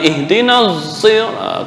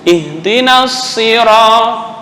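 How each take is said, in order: First: The vowel is held back, sounding like eh. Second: The i vowel is said clearly and fully. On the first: The speaker calls it wrong. "bukan ihdinas sirat, kayak eh, tertahan antara kasrah dengan apa sukun" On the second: The speaker calls it right. "I jelas i"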